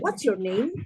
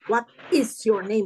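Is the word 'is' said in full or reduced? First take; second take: reduced; full. First: The word is shrinks to an s sound. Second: The word is is pronounced in full.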